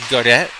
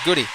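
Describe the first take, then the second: First: The name ends with an 'ay' sound. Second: The name ends with an 'ee' sound. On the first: The speaker calls it wrong. "I called their games a couple of times, pronounced it as" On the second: The speaker calls it right. "the people over here in P E I pronounce it"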